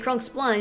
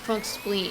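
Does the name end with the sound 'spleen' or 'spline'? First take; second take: spline; spleen. First: The last part rhymes with 'line'. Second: The last part rhymes with 'green'. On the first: The speaker calls it wrong. "Don't say Krunk spline" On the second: The speaker calls it right. "It's pronounced Krunk spleen"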